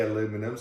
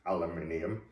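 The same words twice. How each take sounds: First: "aluminum" in four syllables, stress on LU: a-LU-mi-num; "aluminum" the American way, a-LU-mi-num. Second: "aluminium" in five syllables, stress on NI: a-lu-MI-ni-um; "aluminium" the British way, a-lu-MIN-i-um. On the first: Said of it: "I do say aluminum". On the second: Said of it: "Sometimes I will say". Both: Shown as a demonstration.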